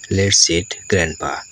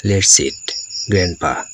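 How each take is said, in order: First: "Let's eat, grandpa" run together as one phrase; no comma pause. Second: "Let's eat," then a short pause, then "grandpa"; pause at comma. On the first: Teacher shows students the missing comma, running "eat grandpa" together. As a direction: carry "eat" on into "grandpa" with little break. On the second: Teacher shows students the comma example, pausing after "eat". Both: Shown as a demonstration. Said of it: "কমা চিহ্ন যদি ব্যবহার না করি".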